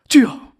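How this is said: It is a sudden, startled exclamation. The speaker is surprised or flustered. "당황스럽거나 놀랄 때"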